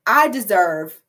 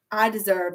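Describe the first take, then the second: First: I deserve louder, punched out; all caps. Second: Said in the usual way. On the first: Shown as a demonstration. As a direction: say it like a shouted mantra. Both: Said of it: "all caps".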